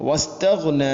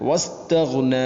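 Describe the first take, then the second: Both takes have the same delivery.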